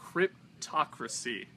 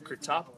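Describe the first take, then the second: First: The title is said clearly with every syllable. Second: The title comes out garbled and shortened. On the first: The speaker calls it right. "There we go. Third time's a charm" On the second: The speaker calls it wrong. "I butchered the pronunciation there"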